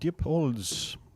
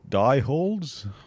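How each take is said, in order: First: The first syllable sounds like 'deep'. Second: The first syllable sounds like 'die'.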